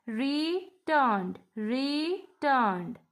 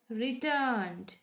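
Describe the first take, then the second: First: RETURNED broken in two, re-turned, with a pause between; split into syllables. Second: Said in the usual way. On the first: Shown as a demonstration. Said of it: "We have two syllables in returned". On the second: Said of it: "We have two syllables".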